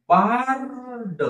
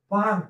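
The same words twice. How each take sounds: First: bard stretched out slowly, sound by sound; slow blending. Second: Said in the usual way. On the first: Shown as a demonstration. Teacher blending a word slowly for pupils. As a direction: draw out bard for the class. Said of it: "हळूहळू सावकाश म्हणून दाखवत आहे". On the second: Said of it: "शब्द तसा पटकन वाचायला पाहिजे".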